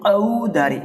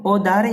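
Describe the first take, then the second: First: "औधारे" with the opening "a-u" glide drawn out; stressed AU diphthong. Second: "ओधारे" opening on a pure long "o"; simple O vowel. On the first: Teacher shows the effort needed, stressed "au" in "औधारे". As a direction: push slowly into the first vowel of "औधारे". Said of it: "इसमें थोड़ा सा जोर लगाना होगा". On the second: Teacher contrasts two words for students, pure "o" in "ओधारे". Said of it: "गलत है बेटा". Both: Shown as a demonstration.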